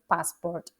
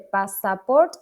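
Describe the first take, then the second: First: The second syllable has a weak, reduced vowel. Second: The second syllable has a full 'a' vowel. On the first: The speaker calls it right. "sin una segunda A" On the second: The speaker calls it wrong. "No se dice passport"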